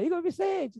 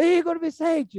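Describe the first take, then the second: First: A mother teasing her son with his full name; playful mother calling. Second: Igor Vicente called high and loud, falling hard; a mother warning her son he is in trouble; stern mother calling. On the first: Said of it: "tem um tom que ela faz que é brincadeira". (mãe chamando Igor Vicente de brincadeira) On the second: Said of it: "ela muda o tom da voz dela". (mãe brava chamando Igor Vicente com tom de bronca) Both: Retold or imitated.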